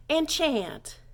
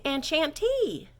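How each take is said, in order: First: Enchant with nasal French en, falling; French for men. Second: Enchantee drawn out slowly; French for women. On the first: Teacher modelling greeting said to a man. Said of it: "if you're saying it to a man". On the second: Teacher modelling greeting said to a woman. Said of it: "if you're saying it to a woman". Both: Shown as a demonstration.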